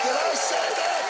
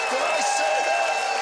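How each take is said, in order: First: High and loud, quicker; mock shock. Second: High, loud, slow; mock shock. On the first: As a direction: repeat it in fake disbelief. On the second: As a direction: stretch it in fake disbelief.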